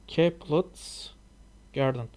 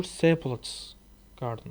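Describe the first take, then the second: First: "Caplet's" begun with a hard k sound; "Caplet's" tried with a k at the front; tentative pronunciation. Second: "Seplet's" tried with an s at the front; alternative pronunciation. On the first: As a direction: say "Caplet's" with an opening k, as one option. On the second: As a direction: say "Seplet's" with an opening s, as the other option. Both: Shown as a demonstration. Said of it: "or Seplet's garden, I don't know".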